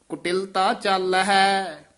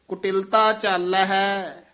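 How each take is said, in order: The two takes are said the same way.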